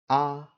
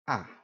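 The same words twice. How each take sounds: First: The pitch stays high and level. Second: The pitch falls sharply from high. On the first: "first tone, which is high and flat" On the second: "fourth tone, which is a sharp falling tone"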